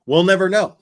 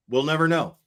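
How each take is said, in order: First: A loud jab, we'll never know; loud sarcastic exclaim. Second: Said in the usual way. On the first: Real, not acted. Commentator scoffs loudly at the missing evidence. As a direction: punch it out loud and mocking.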